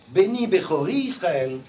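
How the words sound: Bechori runs straight into Israel. The firstborn would be tied to Israel. The speaker calls it wrong.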